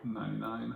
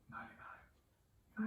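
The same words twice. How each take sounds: First: It is spoken in a normal voice. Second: It is whispered.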